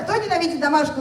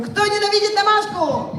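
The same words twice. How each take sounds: First: Higher-pitched call to the crowd; first, milder go at rousing the audience; rallying question. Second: High-pitched hype-host question; rallying cry. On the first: Host translates the question for the audience, rallying. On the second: Host tries the crowd a second time, rousing cry. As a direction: pitch it right up to fire up the crowd. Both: Pretend. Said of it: "Давайте ещё раз попробуем".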